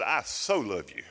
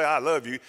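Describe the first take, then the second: First: "so" drawn out, low and slow; "I so love you" slow, with "so" dwelt on; stress on so. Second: Said in the usual way. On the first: Shown as a demonstration. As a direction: lean hard on "so". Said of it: "And I love that little "so". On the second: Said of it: "Now, God didn't say".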